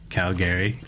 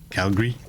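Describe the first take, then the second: First: The 'a' after the L is clearly pronounced. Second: The 'a' after the L is dropped. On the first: This is how outsiders say it. "They don't pronounce the A. I do" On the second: This is how local residents say it. "they prefer it when you call themselves, when you refer to them as Calgary"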